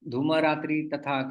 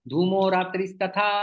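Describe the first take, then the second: First: The words keep their separate, unjoined endings. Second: The endings change as the words run together.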